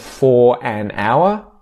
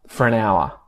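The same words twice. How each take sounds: First: The vowel in 'for' is fully pronounced. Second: The vowel in 'for' is reduced to schwa.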